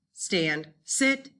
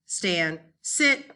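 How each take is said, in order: Both takes have the same delivery.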